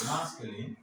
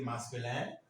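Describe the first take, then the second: First: Said in the usual way. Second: Masculin with a French nasal final vowel; French pronunciation. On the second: Shown as a demonstration. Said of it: "French people say".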